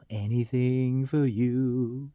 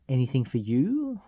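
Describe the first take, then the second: First: Slow sung ballad line; sung title. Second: Said in the usual way. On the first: Acted. Host sings number thirteen, singing slowly. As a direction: sing it slowly and sustain it.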